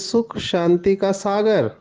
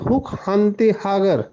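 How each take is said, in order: First: The words begin with an s sound. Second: The words begin with an h sound. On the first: "Hindi में स को स ही कहेंगे" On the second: "Assamese में कहते"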